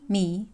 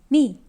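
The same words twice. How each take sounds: First: The syllable carries the second Mandarin tone. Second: The syllable carries the fourth Mandarin tone.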